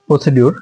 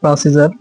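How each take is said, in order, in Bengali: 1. মাঝের ব্যঞ্জনটি সাধারণ "d" ধ্বনি। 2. মাঝের ব্যঞ্জনটি "j" ধ্বনি। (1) "অধিকাংশ শিক্ষকেরা বা শিক্ষার্থীরা বলে প্রসিডিউর না" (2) "এর উচ্চারণ হচ্ছে প্রাচীদার"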